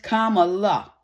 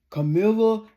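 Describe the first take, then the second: First: The name begins like the word comma. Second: The name is said like Camilla. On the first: The name is said with respect. The speaker calls it right. "her name is Kamala" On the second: The name is mocked on purpose. The speaker calls it wrong. "He makes fun of her name"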